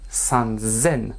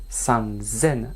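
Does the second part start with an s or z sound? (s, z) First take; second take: z; z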